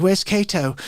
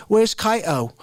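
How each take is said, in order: First: Put-on toned-down English accent; a second, less overdone stab at an English accent. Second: Put-on overdone, botched English accent. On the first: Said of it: "it's not like that at all". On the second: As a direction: try a cool English accent and miss it. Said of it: "like, cool English accent".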